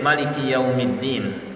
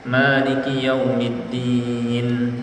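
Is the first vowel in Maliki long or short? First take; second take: short; long. First: The first vowel of Maliki is kept short. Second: The first vowel of Maliki is held long. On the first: It means the king of the day of judgement. "Bisa juga dibaca pendek" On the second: It means the owner of the day of judgement. "Malik dengan dipanjangkan mimnya artinya pemilik"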